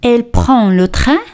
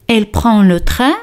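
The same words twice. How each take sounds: The two takes are said the same way.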